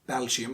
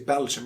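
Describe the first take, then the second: First: The stress is on the second syllable. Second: The stress is on the first syllable. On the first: "You can just keep saying Belgium" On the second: "with a stress on the first syllable"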